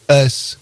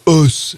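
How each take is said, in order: First: The name's vowel sounds like a plain 'e'. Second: The name's vowel sounds like French 'eu'. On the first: The speaker calls it wrong. "et non pas S comme nous l'avions fait" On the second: The speaker calls it right. "ça se prononcerait donc"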